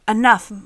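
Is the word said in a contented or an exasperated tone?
exasperated. The word sounds exasperated, like a scolding. Someone is being told to stop. The speaker calls it wrong. "I'm not saying it as enough, Monica, stop it. Like, not like that"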